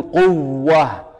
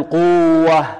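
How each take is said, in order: First: Slow قوة with pressed double w; stressed doubled waw. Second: Slow قوة with long uu, then a loose w; wrong, doubling lost. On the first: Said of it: "لكن نقول قوة". (نطق قوة بنبر الواو المشددة) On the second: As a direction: stretch quu-wah in قوة without stress. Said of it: "هذا إظهار". (نطق خاطئ بإظهار واو قوة دون نبر) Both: Shown as a demonstration.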